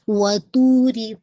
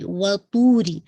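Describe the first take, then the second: First: وَطُورِ with tightly rounded lips on تو, slow. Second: وَطُورِ with a clear damma on تو, louder. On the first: Teacher showing the lip circle for وَطُورِ. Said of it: "تو کی دمہ آپ کی بالکل". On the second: Teacher repeating وَطُورِ with a clear damma. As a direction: make the تو of وَطُورِ round and clear. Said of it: "make sure تو کی دمہ واضح رہے گی". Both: Shown as a demonstration.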